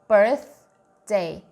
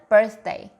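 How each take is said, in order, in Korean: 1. 이 단어는 보통의 또박또박한 속도로 말해요. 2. 이 단어는 빠르게 말해요.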